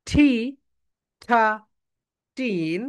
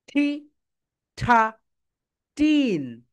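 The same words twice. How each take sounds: The two takes are said the same way.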